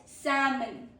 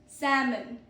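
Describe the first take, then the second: The two takes are said the same way.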